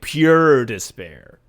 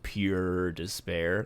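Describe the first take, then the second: First: "pure despair" louder and slow. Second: Soft, slow "pure despair" trailing off; quiet drawn-out despair. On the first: Host repeats the phrase for effect, louder and slow. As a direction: lean hard into "pure despair". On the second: Host describing zombie screams, hushed and slow. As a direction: let "pure despair" sink low and slow. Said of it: "Like, pure despair". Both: Shown as a demonstration.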